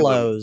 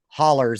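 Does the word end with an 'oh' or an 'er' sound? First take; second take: oh; er. First: It ends with an 'oh' sound, Pennsylvania style. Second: It ends with an 'er' sound, West Virginia style.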